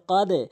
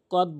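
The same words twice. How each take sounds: First: "কদে" with the d released into a short echo; correct bounced ending. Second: "কদ" stopped flat on the d; wrong closed ending. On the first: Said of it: "বলতে হবে কদে". (ধাক্কা দিয়ে "কদে") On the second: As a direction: end "কদ" with no bounce on the d. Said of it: "ভুল উচ্চারণ". (ধাক্কা ছাড়া "কদ") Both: Shown as a demonstration.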